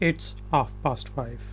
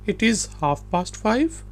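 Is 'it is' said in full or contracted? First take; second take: contracted; full. First: It is joined into one short syllable. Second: It is said as two separate words.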